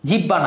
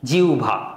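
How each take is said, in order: First: The middle is a doubled 'b' sound. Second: The middle is a 'u' glide plus 'bh'. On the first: The speaker calls it wrong. "জিব্বা না" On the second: The speaker calls it right. "কি জিউভা"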